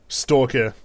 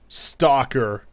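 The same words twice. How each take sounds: First: It is said in an Australian accent. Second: It is said in an American accent. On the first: "There you go" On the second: "That's that's the the more American way of saying it"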